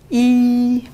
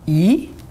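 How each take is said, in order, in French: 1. La hauteur reste haute et plate. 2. La hauteur monte du médium au haut. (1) "premier ton plat" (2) "Deuxième ton"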